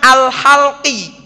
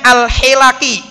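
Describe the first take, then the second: First: The 'h' takes 'a' and the 'l' has no vowel. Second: The 'h' takes 'i' and the 'l' takes 'a'. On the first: Shaving is meant. The speaker calls it wrong. "haknya difathahkan, lamnya disukunkan" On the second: Gatherings of people are meant. The speaker calls it right. "haknya kasroh, lamnya fathah"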